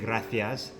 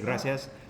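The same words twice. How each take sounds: First: The c is said with a lisped th sound. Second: The c is said with an s sound. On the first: "They say gracias. Like they lisp" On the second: "I say gracias"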